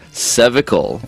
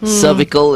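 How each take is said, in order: First: The word is pronounced the British way. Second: The word is pronounced the American way. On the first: "is the way the Brits pronounce it" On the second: "is the way the Americans pronounce it"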